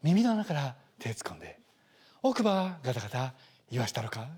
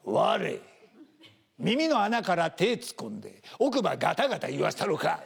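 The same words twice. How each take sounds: First: Morimoto Leo style. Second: Slow, menacing Kansai gangster threat; Kansai thug threat. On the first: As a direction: make the threat sound soothing. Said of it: "脳内で森本レオに変換する". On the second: Kansai tough threatening someone, menacing Kansai threat. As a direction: lean in and threaten in Kansai dialect. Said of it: "向こうの怖い人たちって凄むと". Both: Retold or imitated.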